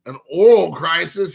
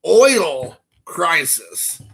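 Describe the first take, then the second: First: "oral" said for oil, two syllables; mispronounced oil. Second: "oil" said slowly, one clear syllable; correct pronunciation. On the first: Retelling the professor's "oral", two-syllable mispronunciation. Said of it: "the way he pronounced the word oil was oral". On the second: Correcting the professor's word, slow, clear "oil". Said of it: "He was trying to say". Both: Shown as a demonstration.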